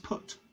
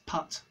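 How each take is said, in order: First: The vowel is the rounded vowel of 'put'. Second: The vowel is an open, unrounded 'uh' sound. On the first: "putt becomes put" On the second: "I use a completely different vowel for putt"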